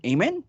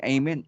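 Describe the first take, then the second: First: Amen? asked with a high rising pitch; preacher prompting amen. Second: Said in the usual way. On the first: Retold or imitated. Preacher prompting the congregation for an answer, rising amen. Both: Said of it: "pag nagpipreach ka, laging".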